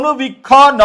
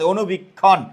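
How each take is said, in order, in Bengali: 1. শেষ ধ্বনিটি আলাদাভাবে ভাগ হয়ে যায়। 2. শেষ ধ্বনিটি আগের দলের সাথে যুক্ত হয়। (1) "আমরা কি বলি অনুবীক্ষ ন" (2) "নটা আগের বর্ণের সাথে চলে আসবে"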